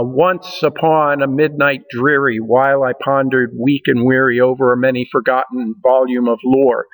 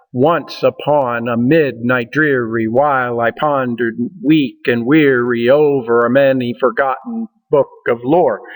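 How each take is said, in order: First: Recited poem with the beat marked; poetry recitation. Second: Chanted in a strong trochaic beat, weak and weary stressed; rhythmic recitation. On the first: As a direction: read The Raven aloud, leaning on the rhythm. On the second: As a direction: pound out the meter of The Raven. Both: Shown as a demonstration. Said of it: "you can hear the rhythm in that".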